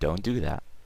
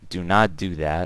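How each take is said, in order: First: Do and not merge into one contracted word. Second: The words do and not are said separately.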